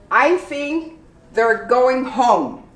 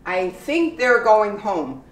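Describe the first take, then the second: First: Slow, each word of "they're" spelled out; slow careful. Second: "they're" said like "there", one syllable; easy everyday "they're going home"; natural they're. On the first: Teacher slowing down to model "they're" as there. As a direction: draw out "I think they're going home". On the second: Teacher saying the line at normal speed. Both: Shown as a demonstration. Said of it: "You pronounce there, not they are".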